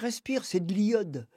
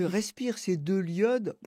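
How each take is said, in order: First: Some sounds are dropped, as in her speech. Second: Every sound is pronounced plainly and fully. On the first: This imitates how the grandmother said it. "mon titre est plus drôle prononcé par elle" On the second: This is the plain title as written. "c'est pas"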